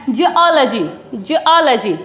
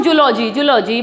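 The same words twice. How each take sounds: First: "जियोलॉजी" as juh-AA-luh-jee; "जियोलॉजी" carefully split before the AA, falling; correct pronunciation. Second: "जूलॉजी" as joo-LO-jee, two-part common way; "जूलॉजी" the usual Hindi classroom way, joo-lo-jee; common mispronunciation. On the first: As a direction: model "जियोलॉजी" with stressed open AA and weak luh. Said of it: "इसका जो सही pronounce है". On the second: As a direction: say "जूलॉजी" with an oo straight into the L. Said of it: "क्या बोलते आए हैं इसको हम". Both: Shown as a demonstration.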